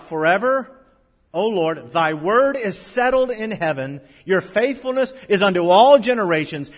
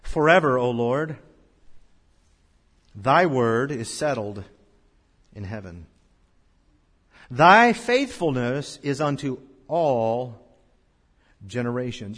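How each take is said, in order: First: Loud, higher, proclaimed verse; thundering scripture proclamation; preached scripture. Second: Slow, measured reading of scripture; solemn verse reading. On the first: Acted. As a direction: shout the promise out to the congregation. Same verse now preached loudly. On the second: Shown as a demonstration. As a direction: read each phrase slowly and solemnly. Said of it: "Look at verse eighty-nine of the text".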